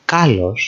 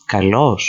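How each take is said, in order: First: Kalos said as KA-los; kalos, weight on KA; stress on first syllable. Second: Kalos said as ka-LOS; kalos, weight on LOS; stress on second syllable. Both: Shown as a demonstration. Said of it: "put the emphasis on the correct".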